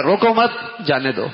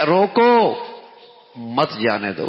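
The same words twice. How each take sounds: First: روکو مت in one go, then جانے دو; pause after مت. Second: Strong روکو set apart, dropping for مت جانے دو; pause after روکو. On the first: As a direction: move the break to after مت. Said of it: "وہ پڑھ رہا ہے". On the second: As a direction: call out روکو, break, keep مت with جانے دو. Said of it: "تحریر میں تو یوں بھی پڑھ سکتا ہے". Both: Shown as a demonstration.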